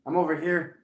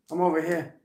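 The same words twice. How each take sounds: First: Said in the usual way. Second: "over here" in Rhode Island accent, r's dropped. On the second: Shown as a demonstration. Showing off the flourishing accent, "over here" in Rhode Island accent. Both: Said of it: "Why is my Rhode Island accent".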